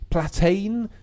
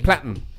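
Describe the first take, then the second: First: The last syllable is long, like 'tane'. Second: The last syllable is a short, clipped 'ten'. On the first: The speaker calls it wrong. "I've mispronounced it" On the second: The speaker calls it right. "It sort of ends"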